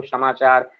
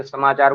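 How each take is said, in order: First: समाचार का पहला स 'श' बोलकर; स की जगह श. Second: Said in the usual way. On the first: Shown as a demonstration. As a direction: say the first sound of समाचार as "sh". (समाचार के शुरू में श की ध्वनि) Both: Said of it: "स को श बोल देते हैं".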